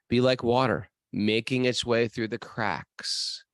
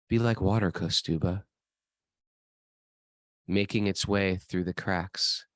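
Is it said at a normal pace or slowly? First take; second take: normal; slowly. First: It is said at a normal pace. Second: It is said slowly, like a kung fu guru.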